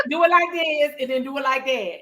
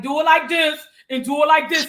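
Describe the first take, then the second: First: Teasing accent imitation, starting high; playful mock accent, raised at first; Alicia. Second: Loud, high, punchy Brooklyn accent imitation; hyped-up Brooklyn guy impression; Brooklyn Mike. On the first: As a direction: mimic a friend's accent for laughs. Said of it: "is that my accent". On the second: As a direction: bark it like a Brooklyn big brother. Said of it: "Brooklyn Mike is my big brother".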